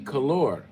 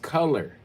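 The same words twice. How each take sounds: First: The second syllable is said like 'our'. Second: The second syllable is said like 'er'. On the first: The speaker calls it wrong. "if you pronounced it the way that you guys spell it" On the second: The speaker calls it right. "It's color"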